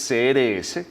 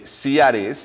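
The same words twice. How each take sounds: First: C R S as Spanish "ce-ere-ese"; Spanish letter names. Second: C R S as English "see-ar-ess"; English letter names. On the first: Repeating the organization's name for listeners, Spanish letter names. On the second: Naming the organization for listeners, English letter names. Acronym given first in English. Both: Shown as a demonstration.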